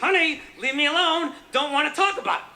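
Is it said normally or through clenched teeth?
clenched teeth. It is said tensely through clenched teeth.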